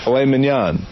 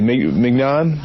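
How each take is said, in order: First: "mignon" with a silent G, min-YON; correct pronunciation. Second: "mignon" with a hard G, MIG-non; mispronounced mignon. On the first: Correcting how you say it, "mignon" as min-YON. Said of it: "That's how you say it". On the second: Mocking the commercial flub, "mignon" mispronounced as MIG-non. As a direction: sound out the G in "mignon". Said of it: "how do you say it?". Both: Shown as a demonstration.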